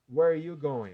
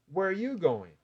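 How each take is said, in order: First: The pitch stays level with almost no melody. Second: The pitch moves up and down with lively melody. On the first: The speaker calls it wrong. "a frase reta, ou sobe um pouquinho, quase nada" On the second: The speaker calls it right. "o jeito certo"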